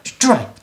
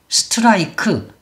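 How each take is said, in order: First: It is said as one syllable without added vowels. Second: It is said as five syllables with added vowels. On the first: The speaker calls it right. "이렇게 소리를 이름절로 내야 된다는 거" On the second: The speaker calls it wrong. "한글처럼 하면"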